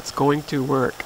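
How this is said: It sounds sure, like a firm statement.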